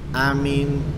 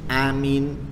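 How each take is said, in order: First: The first vowel is kept short. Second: The same.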